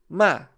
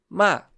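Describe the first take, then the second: The two takes are said the same way.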